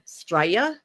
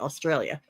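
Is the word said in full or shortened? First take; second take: shortened; full. First: The word is clipped to two short syllables. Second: The word is said with all its syllables. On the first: This is how others have been heard saying it. "I've heard Straya" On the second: This is how the speaker normally says it. "as I would say Australia"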